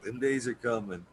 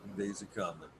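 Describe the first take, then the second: First: Said in the usual way. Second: Repeated softly to self; quiet. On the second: Real, not acted. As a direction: murmur it, fading away. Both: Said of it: "repeated softer".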